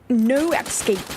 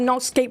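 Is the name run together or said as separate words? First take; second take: separate words; run together. First: The words are said clearly as two. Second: The words are merged into one word. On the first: The speaker calls it right. "Sorry, Knock. No escape" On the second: The speaker calls it wrong. "I always pronounce it Nockscape"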